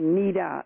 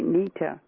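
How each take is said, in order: First: The middle consonant sounds like a soft d. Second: The middle consonant sounds like a clear t. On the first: "everybody else would say Nita, N-I-D-A" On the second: "you pronounce it N-I-T-A, Nita, which is right"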